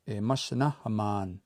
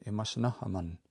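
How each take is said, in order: First: Imasanahaman ending in a long, held "ah" plus n; long final A. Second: Imasanahaman ending in a short "uh"-like vowel plus n; short final A. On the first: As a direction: draw out the final "man" of Imasanahaman. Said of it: "That long A at the end". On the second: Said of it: "make that short A sound". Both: Shown as a demonstration.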